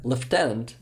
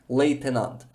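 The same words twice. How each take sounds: First: It is said the British way, like 'leftenant'. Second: It is said the Ukrainian way, like 'leytenant'.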